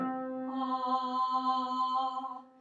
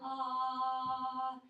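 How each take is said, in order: First: The vowel is made with the larynx lowered. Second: The vowel is made with the larynx raised. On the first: "This is lowered" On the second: "So this is raised"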